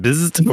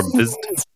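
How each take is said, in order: First: First try at a drawn-out buzz; sustained imitated buzz; buzz noise. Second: Higher-pitched drawn-out buzz; high questioning zap; alternative buzz noise. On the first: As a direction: try out the buzzing title, questioning. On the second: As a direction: offer a second, higher version of the buzz. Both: Shown as a demonstration. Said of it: "how many Z's you need".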